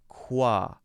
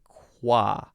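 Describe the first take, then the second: First: The K is followed by a quick W glide. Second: The K is followed by a quick W glide.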